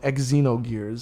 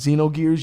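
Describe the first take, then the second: First: It begins with an eks sound. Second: It begins with a z sound. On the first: The speaker calls it wrong. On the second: The speaker calls it right.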